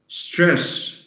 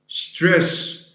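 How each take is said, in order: No difference in how they are said.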